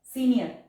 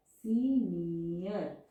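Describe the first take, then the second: First: Said in the usual way. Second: senior drawn out very slowly, each vowel separate; slow, vowels split apart. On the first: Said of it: "दोनों vowel sound एक साथ अलग-अलग हम pronounce कर रहे हैं". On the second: Shown as a demonstration. Shorthand teacher to students, showing the two vowels, very slow. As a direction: stretch senior so both vowel sounds are heard. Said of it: "अलग-अलग हम pronounce कर रहे हैं".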